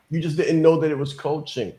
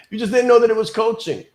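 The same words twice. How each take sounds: First: Said in the usual way. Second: Higher, louder and fast, hitting know; excited emphatic repeat. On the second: Shown as a demonstration. Coach repeating her point to webinar listeners, excited and loud. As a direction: burst out with it after a laugh, fast and loud.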